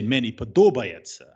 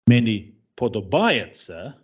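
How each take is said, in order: First: The stress falls on the Ukrainian syllable. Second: The stress falls on a Polish-like syllable. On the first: The speaker calls it right. "you say" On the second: The speaker calls it wrong. "you don't say"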